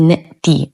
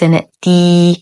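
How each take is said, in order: First: The final vowel is a short i. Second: The final vowel is stretched into a long ee. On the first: The speaker calls it right. "فقط كسر فنقول" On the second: The speaker calls it wrong. "وليس"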